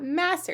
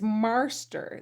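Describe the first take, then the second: First: The first vowel has no r-coloring. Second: The first vowel has a clear r-coloring. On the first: "it's not master" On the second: "There's like an R coloration on that ah"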